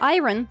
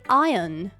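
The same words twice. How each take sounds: First: It is said in an American accent. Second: It is said in a British accent.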